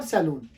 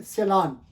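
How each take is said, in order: First: सैलून with a long oo, "sai-LOON"; the wrong "loon" version of सैलून; rejected pronunciation. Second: सैलान with an open aa, "se-LAAN"; correct pronunciation. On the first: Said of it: "not सैलून". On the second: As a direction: say सैलान stretching the final syllable "laan". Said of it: "actual word है सैलान". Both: Shown as a demonstration.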